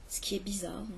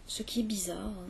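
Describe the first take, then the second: No difference in how they are said.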